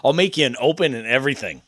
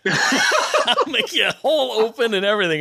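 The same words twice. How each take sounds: First: Said in the usual way. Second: High-pitched, through real laughter; talking while cracking up; laughing. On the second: Real, not acted. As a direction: laugh your way through the offer. Repeats the offer through laughter.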